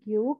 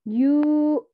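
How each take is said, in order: First: The u vowel is short. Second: The u vowel is long. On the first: "bukan cuma Gyu" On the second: "U-nya panjang"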